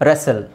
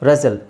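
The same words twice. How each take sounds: No difference in how they are said.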